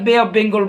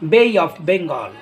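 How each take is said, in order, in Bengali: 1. Bay এর স্বরধ্বনিটি একটি সমতল, একক ধ্বনি। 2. Bay এর স্বরধ্বনিটি 'ee' ধ্বনির দিকে গড়িয়ে যায়। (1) "আর বে অফ বেঙ্গল বলবা না" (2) "আজকের পর থেকে কি বলবা?"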